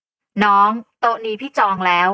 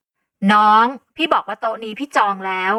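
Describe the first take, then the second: First: Louder, slow, stern claim on the table; พูดเสียงดัง; loud, firm claim. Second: Louder, slow, irritated repeat; เริ่มโมโห; getting angry. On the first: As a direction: lay claim to the table loudly. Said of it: "แล้วพูดขึ้นเสียงดังทันที". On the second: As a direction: repeat it with rising anger. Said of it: "ฉันเริ่มมีน้ำโห". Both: A narrator's reading.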